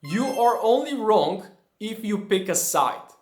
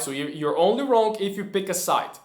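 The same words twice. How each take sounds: First: A slightly set-apart quote voice; lightly voiced quotation; quoted saying, set apart. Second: Said in the usual way. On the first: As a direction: read it out like a quoted maxim. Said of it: "I heard a quote that goes like this". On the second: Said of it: "restating the quote".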